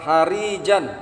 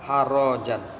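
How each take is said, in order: First: The middle vowel is an i sound. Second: The middle vowel is an a sound. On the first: The word is an adjective. "dibaca dengan roknya kasrah" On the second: The word is a verbal noun used as an adjective. "dengan fathah"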